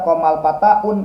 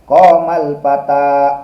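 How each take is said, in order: First: The last word ends with an added 'un' sound. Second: The last word ends in a plain long 'a'. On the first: The speaker calls it wrong. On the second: The speaker calls it right.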